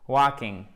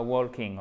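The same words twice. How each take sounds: First: "Walking" with no L sound; silent L. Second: "walking" with the L wrongly sounded; L prononcé à tort. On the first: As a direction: leave the L out of "Walking". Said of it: "Pas de L". (« Walking » prononcé sans le L) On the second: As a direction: voice the L in "walking" before the K. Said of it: "et pas walking". (« walking » avec un L prononcé à tort) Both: Shown as a demonstration.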